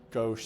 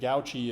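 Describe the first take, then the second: First: The word is said with one syllable. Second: The word is said with two syllables. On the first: "I think gauche sounds fancier" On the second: "You can pronounce it gouchy if you want to"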